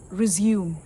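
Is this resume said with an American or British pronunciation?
British. It is said with a British pronunciation. "the British pronunciation of the word"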